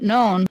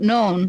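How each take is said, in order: Both takes have the same delivery.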